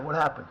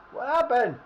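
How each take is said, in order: First: Said in the usual way. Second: Higher, louder alarmed repeat. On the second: Real, not acted. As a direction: ask again, now really worried.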